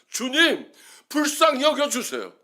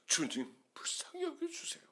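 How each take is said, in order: First: It is said at full, loud volume. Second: It is said quietly, like a low murmur. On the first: "십사 포인트로 썼다가" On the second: "나중에 팔 포인트로 써놨습니다"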